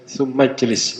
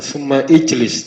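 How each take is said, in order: First: "Sumajlis" run together, no i after summa; "Sumajlis" as one word, hamzah silent; straight into jim. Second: "summa ijlis" with the i sounded; "summa ijlis", hamzah not dropped; hamzah wrongly pronounced. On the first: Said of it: "langsung masuk ke jim". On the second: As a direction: say "summa ijlis" as two separate words. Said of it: "bukan summa ijlis". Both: Shown as a demonstration.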